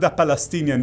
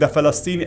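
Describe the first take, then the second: First: The word is not said the Arabic way. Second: The word is said the Arabic way. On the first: The speaker calls it wrong. "not the Palestinian" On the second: The speaker calls it right. "how it is pronounced even in Arabic"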